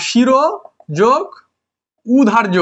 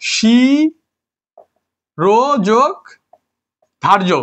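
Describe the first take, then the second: First: "শিরো যোগ উধার্য" in pieces, an extra u opening "উধার্য"; wrongly split word. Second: "শিরো যোগ ধার্য" very slow, the first vowel stretched, no u before "ধার্য"; correctly split word. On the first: Teacher showing a split that is never pronounced, wrongly split word. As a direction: pause between "শিরো", "যোগ" and "উধার্য", starting the last on u. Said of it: "শিরো যোগ উধার্য কখনো হয় না?". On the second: Teacher giving students the right split, correctly split word, drawn out. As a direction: draw out "শিরো যোগ", pause, then "ধার্য" starting on dh. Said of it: "এটা হবে".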